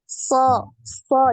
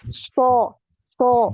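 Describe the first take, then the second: First: The sound is made with unrounded lips. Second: The sound is made with rounded, pushed-out lips. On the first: The speaker calls it right. "jadi tidak dimonyongkan ya" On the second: The speaker calls it wrong. "jangan dimonyongkan bibirnya ketika mengucapkan huruf so, bukan"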